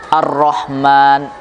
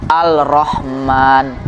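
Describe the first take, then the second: First: The L blends into a doubled R sound. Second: A clear L is said before the R. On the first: The speaker calls it right. "orang akan salah membaca. Ar-Rahman" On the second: The speaker calls it wrong. "nanti bisa-bisa dibaca Al-Rahman"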